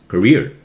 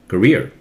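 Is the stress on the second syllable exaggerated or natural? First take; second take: natural; natural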